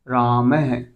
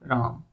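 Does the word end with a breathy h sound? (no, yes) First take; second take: yes; no. First: It ends with an added breathy h sound. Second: It ends plainly with no h sound. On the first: "जैसे ही मैंने विसर्ग लगाई" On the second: "ये तो हिंदी में हुआ"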